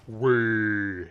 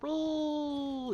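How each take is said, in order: First: It is said in a big, giant voice. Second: It is said in a tiny, little voice.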